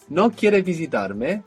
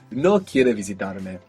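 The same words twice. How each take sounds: First: The voice rises at the end like a question. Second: The voice falls at the end like a statement. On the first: A question asking whether the listener does not want to visit. "don't you want to visit me?" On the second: A statement that the listener does not want to visit. "How would you say you don't want to visit me?"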